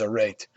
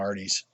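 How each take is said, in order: First: The word sounds like 'a rate'. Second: The word sounds like 'arties'. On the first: This is believed to be the proper pronunciation. "I believe the pro- pro- pronunciation is a rate" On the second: This is the speaker's habitual way of saying it. "So I call them Arties"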